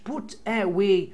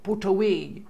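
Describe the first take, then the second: First: The two words are said separately, unlinked. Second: The t runs straight into the next word. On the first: The speaker calls it wrong. "مش" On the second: The speaker calls it right. "لينك بينهم connection بينهم كده اهو"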